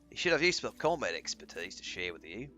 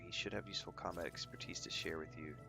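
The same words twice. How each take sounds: First: It is read in an Australian accent. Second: It is read in the speaker's usual accent.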